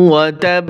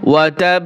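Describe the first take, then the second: No difference in how they are said.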